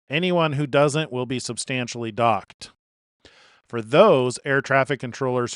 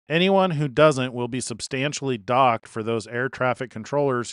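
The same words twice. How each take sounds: First: It is read slower with a break after docked. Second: It runs on quickly with no break after docked.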